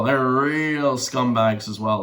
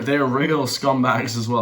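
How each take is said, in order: First: Slow, emphatic stretch on the word real; stress on real. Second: Said in the usual way. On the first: Real, not acted. Host condemning defense lawyers, stretching "real" for stress. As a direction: draw out "real" long and slow.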